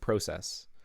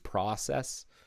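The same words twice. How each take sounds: First: The word is said the Canadian way. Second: The word is said the American way. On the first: "I'm more used to saying process. Uh, I think that's more of a Canadianism" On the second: "Americans, I think, tend to use process"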